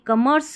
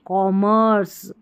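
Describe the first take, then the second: First: The first syllable sounds like 'kum'. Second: The first syllable sounds like 'kom'. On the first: The speaker calls it wrong. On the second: The speaker calls it right.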